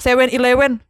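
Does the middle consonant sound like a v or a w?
w. The middle consonant sounds like a w. The listener understands it. The speaker calls it right. "Sumpah gue bilang kayak gitu"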